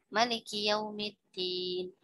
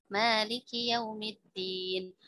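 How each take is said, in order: No difference in how they are said.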